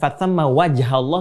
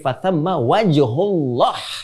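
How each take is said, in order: First: The vowel after wajh is an 'a'. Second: The vowel after wajh is a 'u'. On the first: The speaker calls it wrong. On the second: The speaker calls it right.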